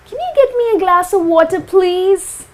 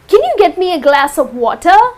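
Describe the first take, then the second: First: It sounds like a nice, polite request. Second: It sounds like a blunt command.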